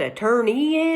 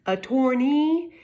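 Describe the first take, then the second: First: Said in the usual way. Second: "Attorney" said slowly as a-TORN-ee; pronounced a-TORN-ee. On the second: Shown as a demonstration. Explaining common law root, "Attorney" with an OR vowel, a-TORN-ee. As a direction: sound out "Attorney" with TORN in the middle.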